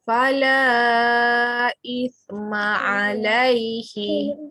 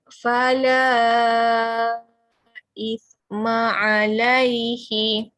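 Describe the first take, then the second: First: The long vowel is stretched for four beats. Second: The long vowel is stretched for five beats. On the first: "kita cuba baca dengan empat harakat" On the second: "Kita cuba lagi sekali lima harakat"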